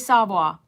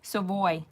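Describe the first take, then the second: First: It is said with a Louisiana pronunciation. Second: It is said without the Louisiana pronunciation. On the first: The speaker calls it wrong. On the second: The speaker calls it right.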